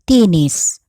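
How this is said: The first vowel is an i sound. "is pronounced as I in Bicol"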